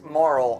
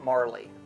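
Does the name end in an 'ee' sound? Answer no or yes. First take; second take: no; yes. First: The name is one syllable with no final vowel. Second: The name has two syllables ending in 'ee'. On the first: This is how most people say it. "everyone says that it's Marl" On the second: This is the speaker's personal way of saying it. "I've always pronounced it Marley"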